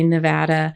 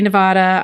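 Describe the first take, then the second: First: It is said with the local Nevada pronunciation. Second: It is said with a Spanish-style pronunciation. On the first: "people in Nevada say Nevada" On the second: "I say Nevada"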